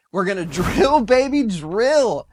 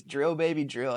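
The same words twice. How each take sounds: First: Put-on loud, high, slow chant of drill baby drill with a laugh; hyped slogan. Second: Said in the usual way. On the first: Hyping Trump's energy slogan to his viewers, loud slow rally chant. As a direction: belt the slogan like a rally cry.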